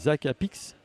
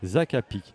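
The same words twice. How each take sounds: First: The final consonant sound is pronounced. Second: The final consonant sound is silent. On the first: The speaker calls it wrong. "On prononce pas le S" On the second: The speaker calls it right. "on ne prononce pas le X"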